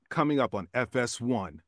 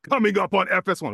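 First: The line is read at moderate pace and energy. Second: The line is read with very high intensity. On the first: The speaker calls it right. "Oh, perfect" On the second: The speaker calls it wrong. "ooh, too intense"

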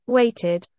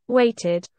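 Both takes have the same delivery.

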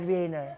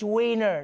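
First: The word begins with a V sound. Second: The word begins with an English W sound. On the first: The speaker calls it wrong. "stop pronouncing their W's like V's" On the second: The speaker calls it right. "It's Wiener"

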